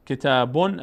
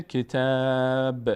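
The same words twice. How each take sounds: First: کتابون with a full "-bon" ending; tanween "on" sounded. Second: کتاب with long held "ā", closing on bare "b"; final letter made sakin. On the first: Teacher gives the word before stopping, کتابون with tanween "-on". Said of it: "تنوین اون بود". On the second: Teacher shows stopping on the word, کتاب slowly with vowelless "b". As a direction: draw out کتاب and stop on a released "b". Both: Shown as a demonstration.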